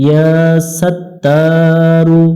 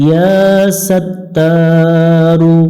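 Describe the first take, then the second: The two takes are said the same way.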